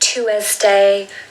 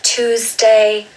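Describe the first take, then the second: No difference in how they are said.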